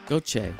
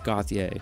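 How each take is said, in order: First: The first syllable sounds like 'go'. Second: The first syllable does not sound like 'go'. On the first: The speaker calls it right. "Gauthier, yeah. Go, like Gauthier" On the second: The speaker calls it wrong. "when I first read it without doing my homework, I thought it was Gauthier"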